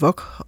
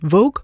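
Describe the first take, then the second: First: The word is pronounced the French way. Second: The word is pronounced the American English way. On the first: The word is French, so it takes French pronunciation. "det er jo et fransk ord, selvfølgelig hedder det Vogue" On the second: The magazine is American, so it takes English pronunciation. "amerikanerne insisterede på, at det hed Vogue"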